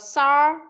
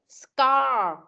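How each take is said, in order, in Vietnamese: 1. Âm k sau s bị bỏ qua. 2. Âm k sau s được phát âm. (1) "tại sao con lại bỏ qua chữ C rồi con đọc là sar?" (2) "Ghép vào chữ C đằng trước thì sẽ thành scar"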